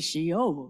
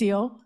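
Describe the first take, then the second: First: The word begins with an sh sound. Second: The word begins with an s sound. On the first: This is the greeting as one community's offices say it. "I meant the S versus the SH sound" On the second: This is the greeting as the other community says it. "at Cherokee Nation, it's the S sound"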